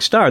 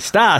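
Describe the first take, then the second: First: The r sound at the end is pronounced. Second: The r sound at the end is dropped. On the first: "he didn't have that Boston accent" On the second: "So he had to call the dog Star"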